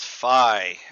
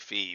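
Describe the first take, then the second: First: The name is pronounced the American way. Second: The name is pronounced the Greek way. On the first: "either the Greek letter pronounced American way" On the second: "if you prefer the Greek pronunciation"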